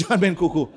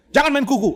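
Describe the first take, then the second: First: Laughing repeat. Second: High, louder mock rebuke; Pak Tong scolding. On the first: Retold or imitated. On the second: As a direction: snap the order at a fidgeting listener. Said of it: "Pak Tong bilang".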